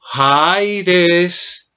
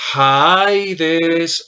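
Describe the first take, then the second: No difference in how they are said.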